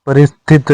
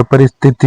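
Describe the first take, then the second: First: परिस्थित said as "paristhit", with no final i; the incorrect form परिस्थित, "paristhit"; wrong pronunciation. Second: परिस्थिति said as "paristhiti", ending in i; the correct form परिस्थिति, "paristhiti"; correct pronunciation. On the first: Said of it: "परिस्थित नहीं होता". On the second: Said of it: "परिस्थिति होता है". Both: Shown as a demonstration.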